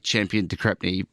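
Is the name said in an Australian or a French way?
Australian. The name is said with an Australian accent. This is how he usually says his own name. "for me"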